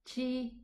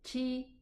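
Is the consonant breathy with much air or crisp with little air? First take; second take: breathy; breathy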